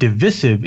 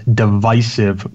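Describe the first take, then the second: First: The stressed vowel is a short I sound. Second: The stressed vowel is a long I sound. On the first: "the pronunciation with the short I" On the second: "with the stressed syllable having a long I"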